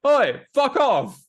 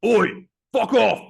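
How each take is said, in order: First: Loud, high, drawn-out mock shout; first go at a gruff footballer's heckle-back, stretched out; Roy Kent. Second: Louder, higher mock shout with a gap between the phrases; Roy Kent. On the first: Host imitating a footballer brushing off a fan, shouted impression. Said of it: "my Roy Kent impression". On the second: Host retrying the footballer's brush-off, exaggerated shouted impression. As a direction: stretch it out and belt it as an impression. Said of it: "I need to do a better".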